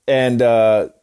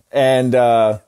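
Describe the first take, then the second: No difference in how they are said.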